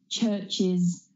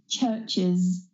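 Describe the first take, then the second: The two takes are said the same way.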